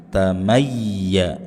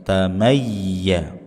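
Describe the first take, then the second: Both takes have the same delivery.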